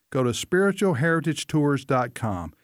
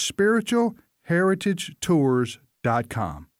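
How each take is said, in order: First: Said in the usual way. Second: Slow, spelled-out repeat of spiritual heritage tours dot com; slow right down so they can write spiritual heritage tours dot com; careful slow repeat of the address. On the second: Shown as a demonstration. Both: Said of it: "That's spiritual heritage tours dot com".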